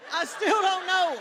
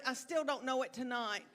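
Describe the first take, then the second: First: High, loud laugh through the words; real laugh at herself, up high. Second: Said in the usual way. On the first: Real, not acted. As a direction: laugh it out, higher and louder. Laughing at forgetting her act.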